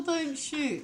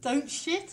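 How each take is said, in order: First: Slow "shoot" with long oo; correct word SHOOT. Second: Slow "shit" with short vowel; mistaken word SHIT. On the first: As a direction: say "shoot" slowly with a long vowel. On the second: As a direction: say "shit" slowly as the slip. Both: Shown as a demonstration. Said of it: "It's a very easy mistake".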